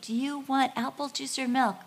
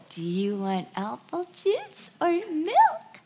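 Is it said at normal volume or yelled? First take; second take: normal; yelled. First: It is said at a normal volume. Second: It is yelled loudly.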